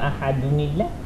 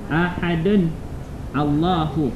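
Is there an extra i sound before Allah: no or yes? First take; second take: yes; no. First: The nun takes an i vowel joining Allah. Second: The words are said separately without a linking vowel.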